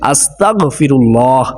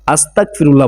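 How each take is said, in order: First: A throaty gh sound comes before 'firullah'. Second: A hard k sound comes before 'firullah'. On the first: The speaker calls it right. "অথচ আস্তাগ গয়ন, এখানে গয়ন" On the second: The speaker calls it wrong. "সঠিকভাবে উচ্চারণ করে না, আস্তাক আস্তাক ফিরুল্লাহ বলে"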